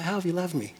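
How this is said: It sounds unsure and pleading.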